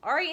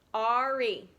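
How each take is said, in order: First: Said in the usual way. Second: "Ari" stretched as ar, ee; two long beats on "Ari"; split into syllables. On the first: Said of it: "how many does Ari have". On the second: Shown as a demonstration. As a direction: sound out "Ari" slowly by syllable. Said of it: "two syllables".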